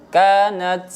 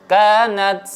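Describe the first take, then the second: The two takes are said the same way.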